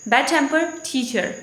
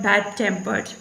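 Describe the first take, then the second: First: Slow "bad-tempered teacher", weight on teacher; stress on TEACHER. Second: "bad-tempered" with the weight on tempered; stress on TEMPERED. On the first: Teacher repeating the phrase for students, stress on teacher. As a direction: slowly, shift the stress from tempered onto teacher. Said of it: "stress will move toward the teacher". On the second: Teacher showing the word alone, stress on tempered. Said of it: "Stress is on the tempered". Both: Shown as a demonstration.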